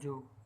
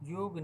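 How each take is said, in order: First: The word begins with a j sound. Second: The word begins with a y sound. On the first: The speaker calls it right. "योग बोला जाएगा जोग" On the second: The speaker calls it wrong. "किंतु योग नहीं"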